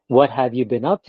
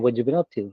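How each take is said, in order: First: Every word is said fully, including have. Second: The word have is dropped in connected speech. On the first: "Instead of" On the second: "You say"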